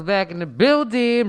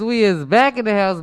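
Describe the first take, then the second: First: Slower, drawn out hype. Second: Hype. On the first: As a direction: stretch it out like a host. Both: Acted. Repeated hype phrase.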